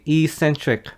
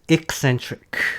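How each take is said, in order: First: It begins with a long 'ee' sound. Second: It begins with a short 'eck' sound. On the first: The speaker calls it wrong. "it sounds like email" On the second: The speaker calls it right. "No, it's eccentric"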